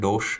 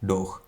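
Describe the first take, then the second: First: The word ends with a hissing sh sound. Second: The word ends with a harsh throaty h. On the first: The speaker calls it wrong. "ഡോഷ് എന്നല്ല" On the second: The speaker calls it right. "ഇഹ് എന്ന് വേണം പ്രൊനൗൺസ് ചെയ്യാൻ"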